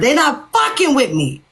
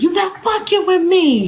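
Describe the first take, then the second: First: It is said in the speaker's normal voice. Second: It is said imitating Janelle's voice.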